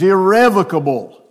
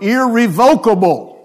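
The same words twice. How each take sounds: First: The word is said in its official, standard way. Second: The word is said in a popular, everyday way. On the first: This is the accepted standard pronunciation. The speaker calls it right. "the official way to say it is irrevocable" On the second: This is how less educated speakers might say it. The speaker calls it wrong. "if you are not as highly educated as some, you may want to think of it in terms of irrevocable"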